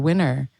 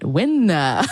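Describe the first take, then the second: First: The final r sound is clearly pronounced. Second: The final r sound is dropped. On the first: "with their English lessons or their native English fluency, uh, American style fluency" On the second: "they were coached to pronounce it smata and win, winna"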